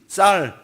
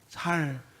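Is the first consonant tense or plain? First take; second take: tense; plain. First: The word starts with a tense, stiff consonant. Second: The word starts with a plain, soft consonant.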